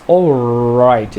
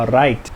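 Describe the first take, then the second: First: "all right" stretched very slowly on a growled R; growled English R. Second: "all right" with a German-sounding R; German-style R. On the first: Teacher showing the difficult English R, growled and stretched. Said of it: "essa rosnada". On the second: Teacher joking about Germans, German-style R in "all right". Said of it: "só se você for alemão". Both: Shown as a demonstration.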